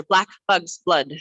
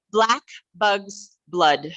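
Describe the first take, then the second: First: Tongue twister with words closer together; a little faster. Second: Slow, separate words with gaps; slow tongue twister. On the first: Leader speeds up the exercise, slightly faster tongue twister. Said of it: "A little faster". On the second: Leader introduces another exercise, slow deliberate tongue twister. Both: Shown as a demonstration.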